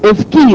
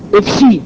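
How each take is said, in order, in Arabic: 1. الحرف الأوسط صوت كاف. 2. الحرف الأوسط صوت شين. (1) "انتوا بتسمعوا ايه؟" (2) "بتنطقوها ايه في بعض الاحيان؟"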